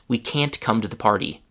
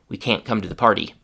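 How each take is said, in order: First: The t in can't is fully released. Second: The t in can't is stopped, unreleased. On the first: "the first time with the full t sound" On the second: "the second time with the stop t"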